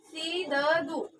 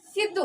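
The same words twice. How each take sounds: First: सिद्धू slowly split as si-da-dhu, full दा vowel; full da sounded. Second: सिद्धू with दा half, joined straight to धू. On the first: Teacher shows pupils the wrong reading of सिद्धू, slowly split as si-da-dhu. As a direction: spell out सिद्धू syllable by syllable with a full दा. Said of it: "अगर हम इसको ऐसा लिखेंगे". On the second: Teacher gives pupils the correct सिद्धू with half दा. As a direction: say सिद्धू as sid-dhu, दा without its vowel. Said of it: "हमें क्या उच्चारण करना है?". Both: Shown as a demonstration.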